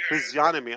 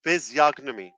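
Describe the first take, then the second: First: "Physiognomy" with no g, as fizzy-onomy; silent G. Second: "Physiognomy" with a hard g before n; G pronounced. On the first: Host copying Robin's recording, G silent. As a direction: drop the g in "Physiognomy". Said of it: "Oh, there's no G". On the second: Host practising the word, G pronounced. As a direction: say the g clearly in "Physiognomy". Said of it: "He's pronouncing the G". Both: Shown as a demonstration.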